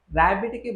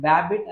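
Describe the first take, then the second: First: Said in the usual way. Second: ర్యాబిట్ said as బ్యాబిట్, b replacing the first r; sound substitution. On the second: Shown as a demonstration. Teacher showing parents a child's substitution error, బ్యాబిట్ with b for r. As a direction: say బ్యాబిట్, with a b at the start for r. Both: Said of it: "బదులుగా బ్యాబిట్ అని పలుకుతారు".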